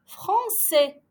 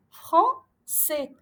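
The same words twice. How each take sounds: First: Français with ç as S, falling; careful reading. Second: Français repeated, ç as S; careful reading. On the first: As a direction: model français for pupils. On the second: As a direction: say Français again clearly. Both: Shown as a demonstration. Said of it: "on dit".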